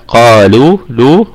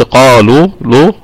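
First: "قالوا لو" with a thin, clear "l"; tongue tip light on the lam of "لو"; correct light lam. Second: "قالوا لو" with a thick, dark "l"; wrong heavy lam. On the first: Teacher correcting students, "قالوا لو" with light lam. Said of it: "لا، قالوا لو". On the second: Teacher showing the mistake, "قالوا لو" with heavy lam. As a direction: let the qaf's heaviness spill into "لو". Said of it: "ما قلتش قالوا لو". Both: Shown as a demonstration.

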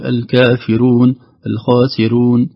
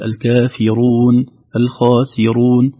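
First: الكافرون and الخاسرون with a light, thin ra; slow, with the ra kept light. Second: الكافرون and الخاسرون with full, thick ra; heavy ra. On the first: Teacher imitates those who thin the ra. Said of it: "يرقق الراء". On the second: Teacher models the heavy ra in الكافرون. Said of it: "يعني مثلًا نقول". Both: Shown as a demonstration.

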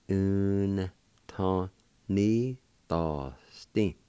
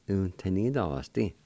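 First: Very slow, stretched-out syllables; syllable-by-syllable demo. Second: Said in the usual way. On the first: Shown as a demonstration. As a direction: draw out every syllable with gaps between. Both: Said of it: "like this".

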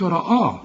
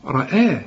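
First: رآه with a dark, thick "ra-aw"; wrong heavy hamza. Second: رآه with heavy ر, then thin "ae"; light hamza. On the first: Teacher shows what not to say, wrong heavy hamza. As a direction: thicken the long vowel in رآه. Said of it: "وبرضه ما تقولش". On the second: Teacher gives the corrected form, light hamza. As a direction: lighten the long vowel in رآه. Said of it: "وبرضه ما تقولش رآه". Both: Shown as a demonstration.

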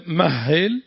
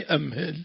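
First: مهل said mahhil, with a doubled h; first form, doubled ha. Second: أمهل said amhil, with a single h; second form, opening hamza. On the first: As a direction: hold the h in مهل, no opening hamza. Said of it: "أي الأولى مهل". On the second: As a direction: open أمهل on a-, then a light h. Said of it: "والثاني أمهل". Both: Shown as a demonstration.

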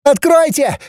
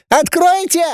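First: Very high first shriek; piercing shriek. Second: Even higher repeated shriek; piercing shriek. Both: A narrator's reading. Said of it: "завопила пронзительным голоском".

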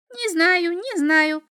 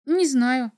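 First: High, loud imp voice; bouncing little devil. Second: Puzzled answer, slightly raised voice; mildly surprised boy. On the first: Little devil dodges the boy's question, bouncy. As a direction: sing it out high, as if hopping. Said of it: "запрыгал чертёнок". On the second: Boy answers the little devil's odd question, surprised. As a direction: answer as if caught off guard. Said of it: "удивлённо ответил мальчик". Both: A narrator's reading.

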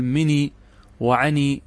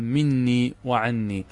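First: "مني وعني" with one short n in each; lightened nun. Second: "مني وعني" as min-nii wa-'an-nii; doubled nun. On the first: Teacher quoting how some early Arabs spoke, "مني وعني" with light single n. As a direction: say mi-nii wa-'a-nii for "مني وعني", no doubling. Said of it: "بالتخفيف". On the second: Teacher giving the original form, "مني وعني" with doubled n. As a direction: press and hold the double n in "مني" and "عني". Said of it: "الأصل أن تأتي بالنون". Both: Shown as a demonstration.

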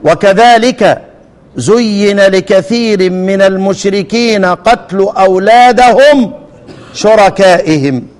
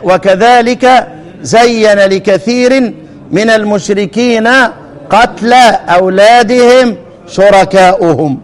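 First: Slow recitation, "زين" as zuyyina, "قتل" as qatlu; measured passive reading, "زين" zuyyina and "شركائهم" ending -ihim; first variant reading. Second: Slow recitation, "زين" as zayyana, "قتل" as qatla; measured active reading, "زين" zayyana and "شركائهم" ending -uhum; majority reading. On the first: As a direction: recite with "أولادهم" as awladahum, "شركائهم" as shuraka'ihim. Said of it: "ناخد القراءتين". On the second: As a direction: recite with "أولادهم" as awladihim, "شركائهم" as shuraka'uhum. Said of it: "وقراءة الباقون". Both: Shown as a demonstration.

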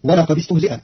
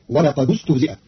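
First: ولقد with kasra joining, walaqadi-stuhzi'a; walaqadistuhzi'a; standard reading. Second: ولقد with damma joining, walaqadu-stuhzi'a; walaqadustuhzi'a; Qalun reading. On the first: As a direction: join ولقد with an i. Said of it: "بضم الدال وصلا". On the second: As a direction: join ولقد with a u. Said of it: "فتصير". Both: Shown as a demonstration.

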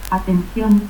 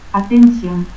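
First: Said in the usual way. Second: Atención as "atensión"; seseo. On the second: Shown as a demonstration.

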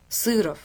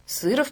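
First: Said in the usual way. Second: Сыров higher, with a rising tune; musing repeat. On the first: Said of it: "прочёл". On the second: A narrator's reading. Venka guessing what the surname means, musing repeat. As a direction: repeat Сыров with the pitch lifting, unfinished. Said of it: "повторил Венка".

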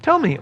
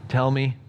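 First: Said in the usual way. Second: "Tell me" much softer and lower; a quiet, reluctant "Tell me"; softer 'Tell me'. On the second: Shown as a demonstration. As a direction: drop "Tell me" to a hushed, wary mutter. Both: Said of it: "what tone of voice Saul used".

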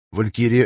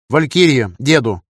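First: Said in the usual way. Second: Raised call sign over a radio. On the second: Acted. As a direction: hail someone on the radio.

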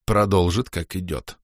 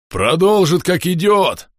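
First: Said in the usual way. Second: Уверенно и громко, выше обычного; прогреметь с полной уверенностью; громкий рокот. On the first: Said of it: "согласился я". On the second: Acted. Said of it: "пророкотал Бом". (громогласно рокочет)

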